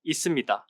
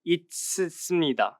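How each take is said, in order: First: The sounds blend as in natural speech. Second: Every letter is sounded out literally. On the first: The speaker calls it right. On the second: The speaker calls it wrong.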